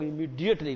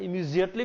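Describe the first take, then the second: First: Immediately said as "imidi-ately", clear d in the middle; other regional way. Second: Immediately said as "imizi-ately", z sound in the middle; one regional way. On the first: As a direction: say immediately with a d sound. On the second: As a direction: say immediately with a z instead of d. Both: Shown as a demonstration. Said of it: "क्षेत्र के हिसाब से थोड़ा बदल भी जाता है".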